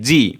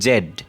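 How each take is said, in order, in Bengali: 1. অক্ষরটি zee হিসেবে বলা হয়। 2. অক্ষরটি zed হিসেবে বলা হয়। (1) "আমরা এটা জি জানি জি" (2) "আসলে তারা উচ্চারণ করবে জেড"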